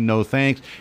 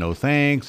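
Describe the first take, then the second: First: It is said in a firmer, stern tone. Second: It is said in a polite, gentle tone.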